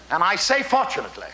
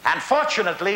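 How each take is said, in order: First: Insisting on the word say; stress on say. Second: Said in the usual way. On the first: Shown as a demonstration. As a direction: say leaned on, falling.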